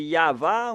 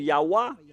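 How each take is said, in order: First: The middle consonant is a V sound. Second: The middle consonant is a W sound.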